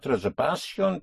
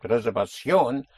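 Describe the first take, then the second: First: Reservación stressed next to last, re-ser-VA-cion; stress on penultimate syllable. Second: Reservación stressed at the end, re-ser-va-CIÓN; stress on last syllable. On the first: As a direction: push the VA in reservación. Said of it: "But it is not reservación". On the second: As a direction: hit the ending of reservación. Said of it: "Because you hit the ending". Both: Shown as a demonstration.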